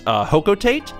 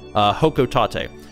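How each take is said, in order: First: The ending rhymes with 'freight'. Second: The ending does not rhyme with 'freight'. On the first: This may be the intended English version. The speaker calls it wrong. "which may be the intended English pronunciation" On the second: This is how the real street name is said. The speaker calls it right. "the word is actually Hokotate"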